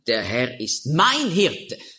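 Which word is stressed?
mein. The stress is on the word mein.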